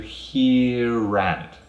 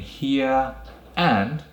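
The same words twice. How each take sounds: First: An R sound links the two words together. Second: The words are said without a linking R sound.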